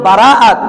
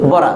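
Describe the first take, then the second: First: The word is said long, with separate vowels. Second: The word is said short, with vowels merged. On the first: This is the original Arabic form. "এটা ছিল বারাআত" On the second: This is the shortened everyday form. "সংক্ষেপে বলে ফেলি বরাত"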